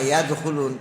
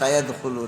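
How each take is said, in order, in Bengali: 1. শব্দটি y ধ্বনি দিয়ে শুরু হয়। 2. s ধ্বনিটি শব্দের শুরুতে যুক্ত থাকে। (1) "একজন আলেমও যদি কইতো যে না" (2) "সবাই বলল"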